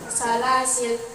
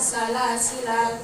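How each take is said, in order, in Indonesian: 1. Vokal akhir dihilangkan. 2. Vokal akhir pendek. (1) "jika waqaf lanya bisa dibaca sukun" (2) "jika wasol lanya dibaca pendek"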